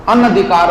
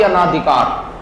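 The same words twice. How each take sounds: First: Short "a" after the n in अनधिकार; अनधिकार, middle vowel kept short; correct short vowel. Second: Long "aa" after the n in अनाधिकार; अनाधिकार with an extra long aa; wrong long vowel. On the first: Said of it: "ना कि अनाधिकार". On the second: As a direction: stretch ना inside अनाधिकार, as the mistaken form. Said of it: "मात्रा लगा दी बिना मतलब". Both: Shown as a demonstration.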